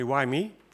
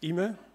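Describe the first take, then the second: First: The name begins with a 'why' sound. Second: The name begins with an 'ee' sound. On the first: The speaker calls it wrong. "that's not really the, uh, the right pronunciation" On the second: The speaker calls it right. "pronounce my name right"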